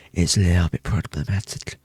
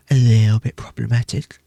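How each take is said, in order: First: Said in the usual way. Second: "problematic" hit harder and louder; louder playful repeat. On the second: Real, not acted. Streamer confessing her sweet tooth, repeating it louder. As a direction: say "A little bit problematic" again with more punch.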